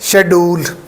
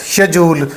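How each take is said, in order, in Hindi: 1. यह 'sh' से शुरू होता है और इसमें 'd' की आवाज़ है। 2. यह 'sh' से शुरू होता है और इसमें 'j' की आवाज़ है। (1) "पाकिस्तानी देखें तो यहाँ पर डी की साउंड आती है" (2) "ब्रिटिश इंग्लिश यूके में... जे की साउंड के साथ"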